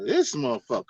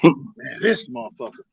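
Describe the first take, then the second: First: It sounds admiring and impressed. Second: It sounds hostile and dismissive.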